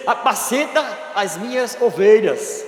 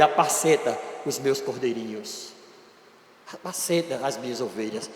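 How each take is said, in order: First: Slow, firm charge to the flock; firm command. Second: Soft, low, gentle charge; tender command. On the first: Jesus charging Peter, slow firm command. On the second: Jesus gently entrusting his sheep to Peter, soft and tender. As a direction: hand him the task gently, almost hushed. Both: Acted.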